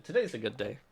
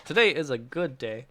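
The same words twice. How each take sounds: First: Said in the usual way. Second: "Today is a good day" said fuller, with more weight; emphatic restatement. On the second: Real, not acted. Streamer affirming the good day to the chat, emphatic.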